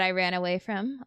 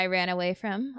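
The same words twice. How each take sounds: First: It is said warmly, with a smile. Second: The same.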